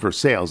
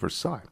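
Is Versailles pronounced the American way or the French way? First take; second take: American; French. First: It is said with a local American pronunciation. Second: It is said with a French pronunciation. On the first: This is the local Ohio town's name. "called Versailles" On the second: This is the name of the French palace. "the French palatial pronunciation"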